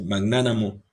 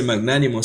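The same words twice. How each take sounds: First: Magnánamo said with -namo: mag-NÁ-na-mo, stress on ná; pronunciation demo. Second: Magnánimo said with -nimo: mag-NÁ-ni-mo, stress on ná; pronunciation demo. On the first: Teacher gives students the second pronunciation, magnánamo, a pronunciation demo. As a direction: say magnánamo with an a where the i would be. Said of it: "sino que se dice magnánamo". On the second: Teacher gives students the first pronunciation of magnánimo, a pronunciation demo. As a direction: say magnánimo with a clear i before the mo. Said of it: "no se dice magnánimo". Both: Shown as a demonstration.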